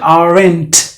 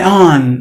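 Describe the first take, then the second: First: The T sound is clearly pronounced in the word. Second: The T sound is dropped from the word. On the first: The speaker calls it wrong. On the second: The speaker calls it right. "the T is completely silent"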